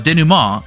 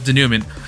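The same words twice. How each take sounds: First: The word is said with a French-style pronunciation. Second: The word is said with an English-style pronunciation. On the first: The speaker calls it right. "I think the word is French. It's supposed to be the" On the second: The speaker calls it wrong. "I'm definitely pronouncing this word wrong. I kept pronouncing it as"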